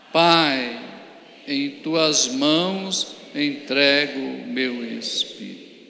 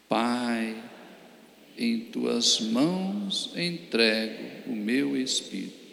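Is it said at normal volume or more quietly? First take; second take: normal volume; more quietly. First: It is said at normal volume. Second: It is said more quietly.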